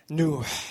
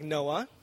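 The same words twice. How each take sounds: First: The name ends with a strong breathy h sound. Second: The name ends in a plain vowel, no h. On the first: The speaker calls it right. "This is Noah in Arabic" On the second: The speaker calls it wrong. "it doesn't sound like Noah, as you might guess"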